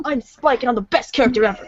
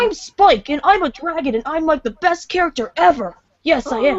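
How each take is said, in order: First: A hint of Spike, rushed and breaking into a laugh; quick laughing brag as a little dragon; Spike impression. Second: A lightly voiced cartoon boy dragon, bragging; boastful young dragon voice; Spike impression. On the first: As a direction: rattle it off fast, laughing through it. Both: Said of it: "people think I can do Spike good".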